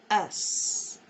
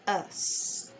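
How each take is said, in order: First: The vowel is said with neutral, unrounded lips. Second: The vowel is said with neutral, unrounded lips.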